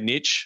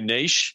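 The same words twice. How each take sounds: First: Niche is said with an American pronunciation. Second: Niche is said with a non-American pronunciation. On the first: "my friends in the U S would say" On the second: "what I would say"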